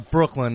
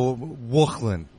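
First: The word begins with a clear br sound. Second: The word begins with a w sound. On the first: "Anything that starts with a BR" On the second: "It turns into a W"

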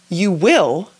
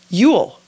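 First: The word 'will' is said in full. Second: The word 'will' is contracted. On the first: This is the written form. "We write" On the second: This is the spoken form. "but we say"

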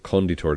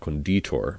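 First: The stress is on the first syllable. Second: The stress is on the second syllable. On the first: It means the creator. The speaker calls it right. "You say conditor" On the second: It means the pickler. The speaker calls it wrong. "not conditor"

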